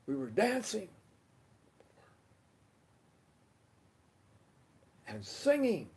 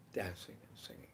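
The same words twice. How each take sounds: First: High, lifted, delighted emphasis; exuberant recollection. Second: Low, soft near-whisper; hushed recollection. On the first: Recalling Wednesday night's get-together, exuberant and high. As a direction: punch dancing and singing up high. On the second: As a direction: let dancing and singing drop away quietly. Same words repeated in a hush. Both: Real, not acted.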